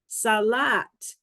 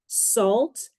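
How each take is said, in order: First: An extra vowel splits the consonant cluster. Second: The consonants are said together without a vowel. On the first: The speaker calls it wrong. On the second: The speaker calls it right.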